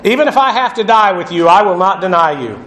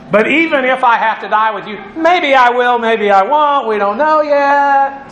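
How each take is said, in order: First: Insistent. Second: Waver playfully, stretching the last words; Peter hedging. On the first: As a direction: insist on it, then come down firmly. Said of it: "Peter kept saying insistently". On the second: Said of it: "Peter's hedging his bets". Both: Acted.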